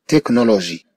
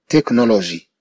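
The two takes are said the same way.

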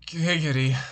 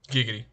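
First: It is said in an exaggerated, lustful voice. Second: It is said in a plain, unexaggerated voice. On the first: The speaker calls it right. "I gotta channel my inner horny" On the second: The speaker calls it wrong. "Wait, I can do it better"

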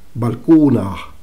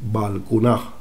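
First: The stress is on the middle syllable. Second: The stress is not on the middle syllable.

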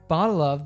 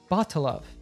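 First: The word of is said in full. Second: The word of is reduced and linked.

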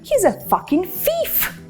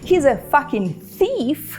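First: Thief starts with an f sound. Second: Thief starts with a th sound. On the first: "«th», який вимовляється просто як «ф»" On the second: "замість"

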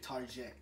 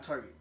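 First: Target is said with a fancy, French-like ending. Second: Target is said the plain, everyday English way. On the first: The speaker calls it right. "Say Target. Be fancy on this side" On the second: The speaker calls it wrong. "It's not Target"

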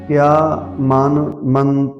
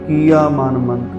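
First: The first word has a short i vowel. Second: The first word has a long i vowel. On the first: The speaker calls it right. "ਪਰ ਕਿਆ ਧੱਕੇ ਨੂੰ ਸਿਹਾਰੀ ਹੈ" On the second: The speaker calls it wrong. "ਇਹ ਕਈ ਵਾਰੀ ਕੀਆ ਮਨ ਮੰਤ ਕਹਿੰਦੇ, ਧੱਕੇ ਨੂੰ ਬਿਹਾਰੀ ਲਾ ਕੇ ਪੜ੍ਹਦੇ ਆ"

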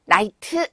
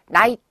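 First: The final T is strongly and clearly released. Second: The final T is soft and barely released. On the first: The speaker calls it wrong. "하지 않는다" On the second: The speaker calls it right. "해야지"

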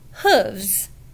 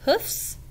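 First: The plural ends with a v sound. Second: The plural ends with an f sound. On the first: The speaker calls it right. "A horse has 4 hooves" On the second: The speaker calls it wrong. "No, it doesn't have hoofs"

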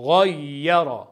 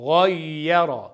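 Both takes have the same delivery.

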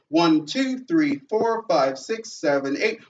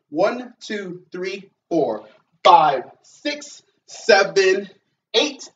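First: The counting is at a faster pace. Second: The counting is at a slow pace.

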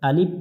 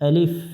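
First: The word ends in a Bengali p-type sound. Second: The word ends in an Arabic f sound. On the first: The speaker calls it wrong. "শেষে বাংলা দিয়ে প উচ্চারণ করি" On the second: The speaker calls it right. "আলিফ বলবো না"

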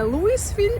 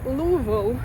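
First: The name has an s sound in the middle. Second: The name has no s sound in the middle. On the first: The speaker calls it wrong. "вони не говорять Луїсвіль" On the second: The speaker calls it right. "вони говорять Луївіл, без букви «С»"

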